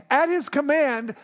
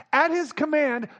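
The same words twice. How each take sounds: The two takes are said the same way.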